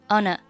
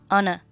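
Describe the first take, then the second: Both takes have the same delivery.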